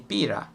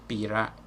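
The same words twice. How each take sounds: First: The R is a tapped Italian-style R. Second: The R is a soft American-style R. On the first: The speaker calls it right. "I would say pira, like in Italian" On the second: The speaker calls it wrong. "I wouldn't say pira"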